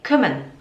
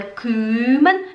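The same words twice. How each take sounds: First: The first vowel is short and quick. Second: The first vowel is drawn out long. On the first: The speaker calls it right. "é rápido" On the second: The speaker calls it wrong. "Não é"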